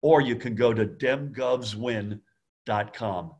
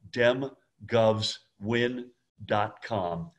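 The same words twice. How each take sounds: First: Said in the usual way. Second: Dem govs win dot com said very slowly, each word apart; slow it right down so they can write it; slow, spelled-out repeat. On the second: Shown as a demonstration. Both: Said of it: "make sure you make note of this".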